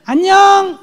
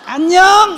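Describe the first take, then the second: Both takes have the same delivery.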